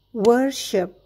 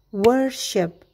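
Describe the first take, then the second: No difference in how they are said.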